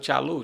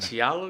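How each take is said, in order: First: The name ends with a 'u' vowel sound. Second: The name ends with an 'o' vowel sound. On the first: The speaker calls it wrong. "na nossa região a maioria fala assim" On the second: The speaker calls it right. "Pronunciei bem?"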